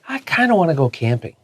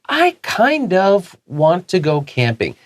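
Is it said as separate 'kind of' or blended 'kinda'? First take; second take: blended; separate. First: It is said quickly, blended into 'kinda'. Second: It has two separate words, 'kind of'.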